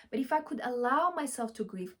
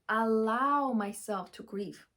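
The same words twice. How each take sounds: First: Said in the usual way. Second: Slow emphatic repeat. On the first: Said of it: "repeats the phrase". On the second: Shown as a demonstration. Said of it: "repeats slowly".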